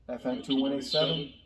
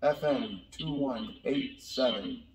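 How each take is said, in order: First: Said in the usual way. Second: Slow, tinny electronic helmet voice filter; helmet voice changer. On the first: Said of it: "when you press it the second time". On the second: Shown as a demonstration. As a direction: speak slowly through a cheap helmet voice changer. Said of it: "So again, not very good".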